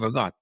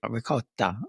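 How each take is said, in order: First: The final vowel is dropped from the word. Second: The final vowel is fully pronounced in the word. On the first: This is how the family's dialect says it. "they chop off all the vowels off the end of everything" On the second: This is how standard Italian says it. "if you're really speaking proper Italian"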